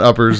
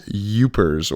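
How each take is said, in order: First: The word starts with a plain vowel. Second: The word starts with a 'y' sound. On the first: The speaker calls it wrong. "not uppers" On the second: The speaker calls it right. "it's youpers. Y O O P E R S"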